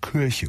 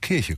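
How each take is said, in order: First: The first vowel sounds like a rounded ö. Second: The first vowel sounds like a clear i. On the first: This is how the local people actually say it. "sagen sie" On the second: This is what the speakers mean to say. "Wenn sie sagen"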